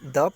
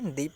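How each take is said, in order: First: It ends in a short 'uh' vowel. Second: It ends in a long 'ee' vowel. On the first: The next word starts with a consonant sound. "कहाँ पे द पढ़ते हैं" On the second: The next word starts with a vowel sound. "कहाँ पे दी पढ़ते हैं"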